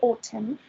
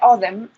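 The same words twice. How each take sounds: First: The T sound is pronounced very hard. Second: The T sound is pronounced softly.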